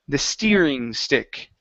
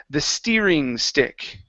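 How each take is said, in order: No difference in how they are said.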